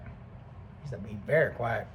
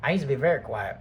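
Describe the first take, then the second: First: Softer, lower and slowed down; quiet and slow. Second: Said in the usual way. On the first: Shown as a demonstration. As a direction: say it quietly, showing how quiet he was.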